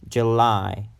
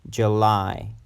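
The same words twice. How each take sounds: No difference in how they are said.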